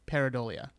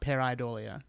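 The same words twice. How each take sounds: First: The word is said without a long 'i' sound. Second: The word is said with a long 'i' sound. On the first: The speaker calls it right. "kind of blend the two and just make it pareidolia" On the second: The speaker calls it wrong. "We'll get that long I out of there"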